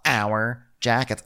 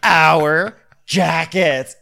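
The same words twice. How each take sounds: First: Slow "our", with little rise in voice; milder stress on OUR. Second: "our" drawn out, high and loud; stress on OUR. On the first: Shown as a demonstration. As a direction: repeat it slowly, stretching "our" without squealing. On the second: Retold or imitated. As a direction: squeal it, leaning hard on "our". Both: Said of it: "with an emphasis on the hour".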